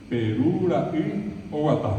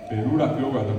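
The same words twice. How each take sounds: First: "Perura y Oguatá" said slowly and clearly; slow Guaraní phrase. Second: Said in the usual way. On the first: Shown as a demonstration. ("Perura y Oguatá" dicho despacio) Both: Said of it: "cómo se dice en castellano".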